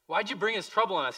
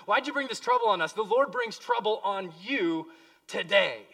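First: Said in the usual way. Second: Higher, louder, fast accusing rebuke; Joshua rebuking Achan. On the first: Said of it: "Joshua said". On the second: Acted. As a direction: confront Achan, hurling the question at him. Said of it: "He's talking to Achan".

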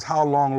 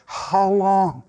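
First: Said in the usual way. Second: "How long" stretched out on a held tone; drawn-out lament. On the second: Acted. Preacher voicing David in the Psalms, "How long" drawn out in lament. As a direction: sustain "long" as a plea. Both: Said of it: "David would say in the Psalms".

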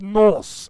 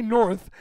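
First: "Norse" drawn out long and loud; loud, stretched "Norse" imitating the German doctor; German-accented Norse. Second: Said in the usual way. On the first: Shown as a demonstration. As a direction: say "Norse" slowly with a German accent, ending on a hissed s. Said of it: "He said Norse". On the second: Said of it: "He didn't say north".

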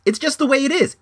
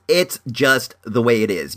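First: High, exasperated insistence; high-pitched insistence. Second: Said in the usual way. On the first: Real, not acted. Ranting at careless dog owners, high-pitched insistence.

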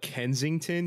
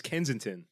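First: "Kensington" with the g sounded; "Kensington" as an outsider says it; mocked pronunciation. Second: "Kensington" with the g dropped, Kenzin-tin; "Kensington" slurred the local way; local pronunciation. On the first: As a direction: say "Kensington" carefully, keeping the middle g. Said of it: "It's Kensington". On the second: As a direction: say "Kensington" without the g. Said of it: "did you call it Kensington". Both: Shown as a demonstration.

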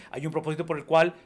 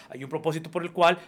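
No difference in how they are said.

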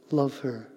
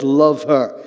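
First: Hushed, gentle urging. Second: Loud, forceful command; strong, emphatic insistence. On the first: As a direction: say it gently and quietly, as a tender instruction. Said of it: "a gentle voice". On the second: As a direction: lay down the order firmly and loudly. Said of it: "then the voice came strong". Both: Retold or imitated.

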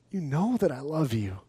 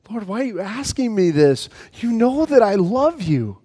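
First: Said in the usual way. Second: Hurt plea. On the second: Acted. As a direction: let the hurt rise as he pleads. Peter hurt by the third question.

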